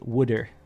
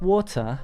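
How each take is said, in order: First: It is said in a Philadelphia accent, like 'wooder'. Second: It is said in an English accent. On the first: "You pronounce water as wooder, which is Philadelphia" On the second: "in England, they're like"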